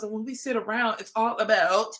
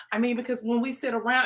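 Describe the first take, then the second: First: Mock Canadian accent on "about"; the speaker's Canadian accent. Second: Said in the usual way. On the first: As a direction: slip into a put-on Canadian accent at the end. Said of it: "A Canadian accent". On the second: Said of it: "and it's all regular".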